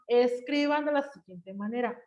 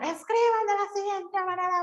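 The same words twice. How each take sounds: First: It is said in an even, regular tone. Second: It is said high, fast and forcefully. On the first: "un tono regular" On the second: "viene de malas. Así hablo. tiene una entonación muy alta y un ritmo muy acelerado"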